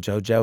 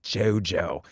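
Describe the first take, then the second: First: The name is said in a neutral way. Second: The name is said with scornful disdain.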